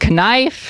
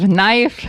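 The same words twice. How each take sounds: First: It is pronounced letter by letter, as spelled. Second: It is pronounced the usual, standard way. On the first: The speaker calls it wrong. "the way they're spelled" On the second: The speaker calls it right. "the way they're supposed to be said"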